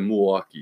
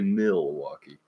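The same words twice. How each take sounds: First: The first syllable is clipped and swallowed. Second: The first syllable is fully pronounced. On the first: This is how locals say it. "It's like Milwaukee" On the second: This follows the written form. "they don't say Milwaukee, even though that is how it's spelled"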